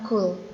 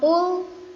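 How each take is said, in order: First: The first consonant is a plain forward k sound. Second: The first consonant is made deep in the throat. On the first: The speaker calls it wrong. "bukan Kul" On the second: The speaker calls it right. "ini huruf Qaf. Jadi dibacanya Qul"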